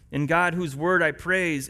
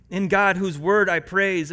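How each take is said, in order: First: Said in the usual way. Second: Louder refrain. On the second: Acted. Pastor building the psalm refrain, louder and fervent. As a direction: lift the repeated line with fervour. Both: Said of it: "Listen as I read Psalm".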